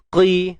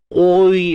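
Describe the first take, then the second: First: The syllable is moderately thick with a clear i. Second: The syllable is over-thickened, sounding like qoi. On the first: The speaker calls it right. "jadi macam mana? Qi" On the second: The speaker calls it wrong. "terlalu menebal ni macam mana? ... ada bunyi qoi"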